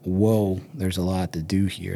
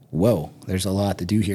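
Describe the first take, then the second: First: The voice sounds daunted and weighed down. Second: The voice sounds excited and eager. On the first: The workload feels overwhelming. The speaker calls it wrong. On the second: The workload feels like a thrilling opportunity. The speaker calls it right. "you can get yourself excited"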